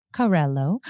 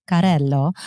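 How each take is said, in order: First: Said in the usual way. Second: Carrello with rolled Italian r; Italian accent. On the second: Shown as a demonstration. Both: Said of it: "I give it a little Italian accent to it".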